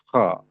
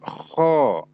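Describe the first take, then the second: First: The rasping consonant is kept short and brief. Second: The rasping consonant is held long and drawn out. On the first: The speaker calls it right. "Cukup dengan mengatakan kho" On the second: The speaker calls it wrong. "artinya panjang benar eh-nya ya. Nah, itu yang tidak dibenarkan"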